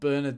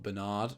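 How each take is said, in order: First: The name is said in a British accent. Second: The name is said in an American accent.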